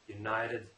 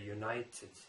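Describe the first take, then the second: First: The T is softened and not clearly pronounced. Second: The T is pronounced clearly. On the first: The speaker calls it right. "Americans say letter, united" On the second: The speaker calls it wrong. "You don't say united, you know, you don't pronounce the T letter"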